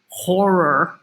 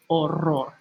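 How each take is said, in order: First: The word begins with an audible h sound. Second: The word begins directly with the vowel sound. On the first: The speaker calls it wrong. "We don't say horror" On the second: The speaker calls it right. "the H is silent"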